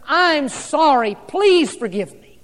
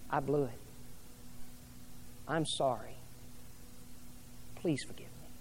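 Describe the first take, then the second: First: Slowed right down, each word weighed, a touch louder; a heartfelt apology, drawn out and deliberate; slow sincere apology. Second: Much softer, trailing to a near whisper on the last words; a soft, humbled apology fading out; hushed apology. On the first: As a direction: plead for forgiveness, slow and earnest. Pastor voices a husband apologizing. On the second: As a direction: confess it quietly, almost breathless. Pastor voices an apology to mate. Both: Acted.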